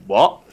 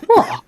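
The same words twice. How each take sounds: First: Puzzled reaction. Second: High, loud mock "what?"; startled sister. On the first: Retold or imitated. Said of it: "shook my head and looked up at him and was like". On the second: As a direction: imitate a sister caught off guard, pitched right up. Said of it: "he just looked at her and she went".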